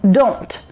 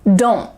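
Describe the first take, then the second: First: The final T is clearly released. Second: The final T is held without release. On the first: "The T is really clearly pronounced" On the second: "say it quickly, kind of relaxed, maybe lazy style"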